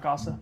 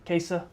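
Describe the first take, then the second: First: Casa said KAH-suh; first syllable of Casa with an open "ah"; mispronunciation shown. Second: Casa said KAY-suh; first syllable of Casa like "case"; corrected pronunciation. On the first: Weather host showing his mistake to viewers, Casa as KAH-suh. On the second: Weather host correcting his mispronounced town name, Casa as KAY-suh. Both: Shown as a demonstration. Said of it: "not Casa, sorry".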